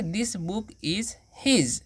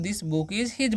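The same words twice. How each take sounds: First: Each word drawn out very slowly; slow, careful teacher dictation. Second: Said in the usual way. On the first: Shown as a demonstration. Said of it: "तो क्या बोलेंगे?". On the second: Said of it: "तो हम".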